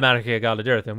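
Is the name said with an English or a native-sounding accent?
English. The name is said with an English-sounding accent. The speaker calls it wrong. "a very English way of saying"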